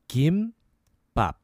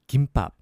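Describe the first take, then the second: First: The word is said slowly. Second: The word is said fast.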